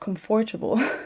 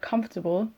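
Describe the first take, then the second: First: The word is said closely following its spelling. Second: The word is said in its usual reduced form. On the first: The speaker calls it wrong. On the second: The speaker calls it right.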